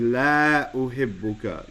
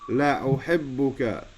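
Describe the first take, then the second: First: The vowel of the first syllable is long. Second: The vowel of the first syllable is short. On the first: I do not love you. The speaker calls it wrong. "don't say la uhibbuka" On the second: Indeed I love you. The speaker calls it right. "you say it short"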